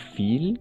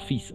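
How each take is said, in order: First: The word ends with a clear L sound. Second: The word ends with an S sound, no L. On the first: The speaker calls it wrong. "on va prononcer pas fil" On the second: The speaker calls it right. "la L omitimos"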